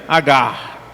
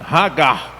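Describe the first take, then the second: First: The name starts directly with a vowel. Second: The name starts with an h sound. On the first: "traz H só com A. A, G A R" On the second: "no hebraico a pronúncia é Hagar"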